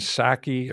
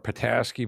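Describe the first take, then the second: First: The name is said with two syllables. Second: The name is said with three syllables. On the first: The speaker calls it right. "It's like Jen Psaki or something like that" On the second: The speaker calls it wrong. "I like to call her Pataski, but it's not"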